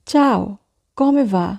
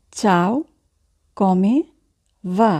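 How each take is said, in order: First: Said in the usual way. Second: "Ciao", "come", "va?" each set apart by long pauses; slow dictation with pauses; word by word. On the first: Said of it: "teacher models phrase". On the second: Shown as a demonstration. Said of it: "teacher repeats word by word".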